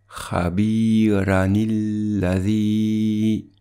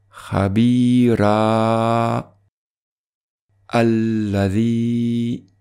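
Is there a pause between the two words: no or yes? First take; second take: no; yes. First: The words run together with a linking nil. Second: There is a pause between the two words. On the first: "La lecture sans faire de pause" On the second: "La lecture avec pause"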